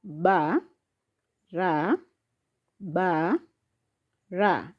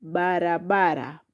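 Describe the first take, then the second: First: "ba, ra, ba, ra" lower, with long pauses; syllable by syllable. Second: Said in the usual way. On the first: Shown as a demonstration. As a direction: space out each beat of "ba, ra, ba, ra". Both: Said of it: "So the syllables are".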